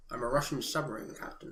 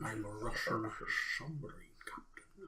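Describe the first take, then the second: First: Quiet, lower mock Connery accent; low Scottish-tinged movie line, done badly; understated Connery impression from The Hunt for Red October; bad Sean Connery line. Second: Put-on soft, half-whispered Connery accent trailing off; quiet whispered mock Connery; echoing Connery impression. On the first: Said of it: "It's gonna be really bad". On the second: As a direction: murmur the Connery line, fading. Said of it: "repeats Connery line as impression".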